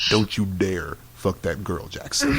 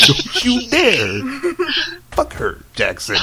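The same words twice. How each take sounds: First: Sudden stern warning. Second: Loud, drawn-out mock threat; hammed-up furious warning. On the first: Retold or imitated. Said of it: "he switches over to". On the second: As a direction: blast the opening slowly, then drop away. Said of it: "you're getting kinda real right now".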